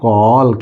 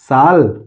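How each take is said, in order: First: The word begins with a k sound. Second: The word begins with an s sound. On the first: The speaker calls it right. "ये पढ़ेंगे कॉल" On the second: The speaker calls it wrong. "साल नहीं"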